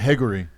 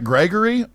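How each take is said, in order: First: The G is dropped and R sounds like H. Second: The name starts with a hard G sound.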